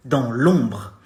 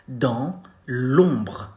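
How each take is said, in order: First: Dans l'ombre said at normal speed; French at normal pace; natural demo. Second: Dans l'ombre drawn out with a short, brief br at the end; slow teaching model; slow demo. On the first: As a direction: say dans l'ombre as in real speech. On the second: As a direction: spell Dans l'ombre out slowly. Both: Shown as a demonstration. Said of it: "You say".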